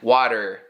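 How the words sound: It is said with an American accent. "we do more of the er in water"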